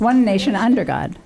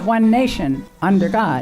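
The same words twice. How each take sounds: First: There is no pause after 'nation'. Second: There is a pause after 'nation'.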